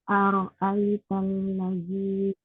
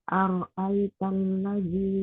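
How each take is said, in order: Both takes have the same delivery.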